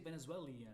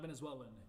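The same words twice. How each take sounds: First: An extra 'ee' sound comes before the ending. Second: No extra 'ee' sound comes before the ending. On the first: This is how many people say it. The speaker calls it wrong. "A lot of people say Venezuelan, ... They throw like an extra I in there" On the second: This is how it should be said. The speaker calls it right. "not Venezuelan"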